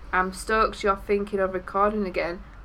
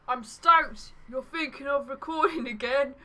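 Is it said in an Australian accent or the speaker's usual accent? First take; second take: usual accent; Australian. First: It is said in the speaker's usual accent. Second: It is said in a put-on Australian accent.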